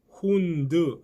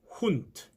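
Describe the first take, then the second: First: The word ends with a voiced d sound. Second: The word ends with a voiceless t sound. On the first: The speaker calls it wrong. "꼭 훈드 하지 마시고" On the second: The speaker calls it right. "이렇게 발음하셔야 됩니다"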